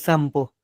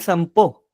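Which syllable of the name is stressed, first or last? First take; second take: first; last. First: The stress is on the first syllable. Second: The stress is on the last syllable. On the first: The speaker calls it wrong. "muchos me dicen Sampo" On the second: The speaker calls it right. "con tilde"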